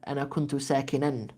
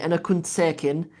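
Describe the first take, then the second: First: The last word ends with an added -an sound. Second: The last word ends bare, without an ending. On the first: It follows formal grammar for the predicate of kana. "you should say" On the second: It is the everyday colloquial form. "They say ... in عامية"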